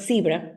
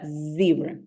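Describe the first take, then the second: First: It begins with a hissing s sound. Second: It begins with a buzzing z sound. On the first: The speaker calls it wrong. "It's not zebra" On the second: The speaker calls it right. "but zebra"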